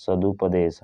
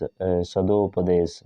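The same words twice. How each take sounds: First: सदुपदेश with a clear u after सद; teacher confirming सदुपदेश as correct; correct form. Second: सदोपदेश slowly with o after सद; teacher testing the wrong सदोपदेश slowly; wrong form, said slowly. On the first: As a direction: settle on the right सदुपदेश with a fall. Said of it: "हाँ सदुपदेश". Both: Shown as a demonstration.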